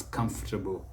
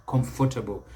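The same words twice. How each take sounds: First: Comfortable as CUMF-tuh-bl; correct pronunciation. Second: Comfortable as com-FOR-ta-bl; common mispronunciation. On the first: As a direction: stress CUM and shrink the rest of comfortable. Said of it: "it's comfortable". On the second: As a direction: sound the O and "for" in comfortable. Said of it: "a common mistake many people make". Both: Shown as a demonstration.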